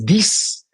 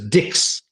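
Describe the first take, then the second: First: The word is said with a French pronunciation. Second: The word is said with an English pronunciation. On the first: "The French speakers could pronounce X as dix" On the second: "the English speakers pronounce it as dix"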